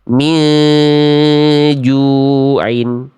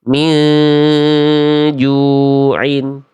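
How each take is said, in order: No difference in how they are said.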